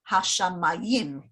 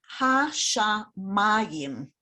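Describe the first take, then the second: First: The stress is on the last syllable, yim. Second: The stress is on the third syllable, ma. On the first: The speaker calls it wrong. "rather than something like" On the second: The speaker calls it right. "put the stress on that syllable"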